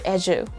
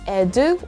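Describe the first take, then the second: First: The consonant is a j sound. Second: The consonant is a plain d sound. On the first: The speaker calls it right. "It's the sound of the letter J" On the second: The speaker calls it wrong. "the sound of the letter D"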